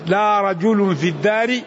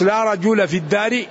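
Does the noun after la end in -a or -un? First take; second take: -un; -a. First: The noun ends with a nunated -un ending. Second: The noun ends with a short -a ending. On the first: It denies only a single man being there. "يمكن تقول بل رجال" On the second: It denies any man at all being there. "لا التي لنفي الجنس وتعمل عمل إن"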